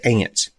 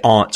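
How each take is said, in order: First: The word sounds exactly like the insect 'ants'. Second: The vowel differs from the vowel in 'ants'. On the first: This is how people say it down south. "We say aunts. Like them little creatures that run across the ground" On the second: This is not how people say it down south. "We don't say aunts"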